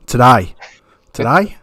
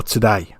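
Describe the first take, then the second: First: Aussie vowel, today as "to-die"; attempted Australian accent. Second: Said in the usual way. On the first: Host checks his attempt with the guest, in an Australian accent. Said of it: "Is that how you say it?".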